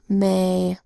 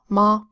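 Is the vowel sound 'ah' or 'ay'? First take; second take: ay; ah. First: The vowel is a long 'ay' sound. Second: The vowel is a broad 'ah' sound. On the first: The speaker calls it wrong. "this is not" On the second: The speaker calls it right.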